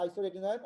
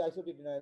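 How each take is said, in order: First: আইসোরেটিনয়েড said with a clear "রে" after "আইসো", not "টি"; correct pronunciation. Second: আইসোটিটিনয়েড said the usual way with "টি" in place of "রে"; common mispronunciation. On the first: Lecturer correcting students, saying আইসোরেটিনয়েড the proper way. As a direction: spell out আইসোরেটিনয়েড carefully with "রেটিনয়েড" intact. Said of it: "আসলে উচ্চারণ হচ্ছে আইসোরেটিনয়েড". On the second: Lecturer showing students the usual wrong আইসোটিটিনয়েড. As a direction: say আইসোটিটিনয়েড as everyone commonly does, with "টিটি". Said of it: "আমরা সবাই বলি আইসোটিটিনয়েড".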